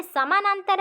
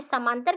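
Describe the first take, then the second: First: Said in the usual way. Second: समांतर with samanantar's middle syllable lost; slurred pronunciation. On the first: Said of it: "यहाँ पे समांतर कह रहा है". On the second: Shown as a demonstration. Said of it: "अस्पष्ट उच्चारण कर रहा है". (समानांतर को छोटा करके अस्पष्ट "समांतर")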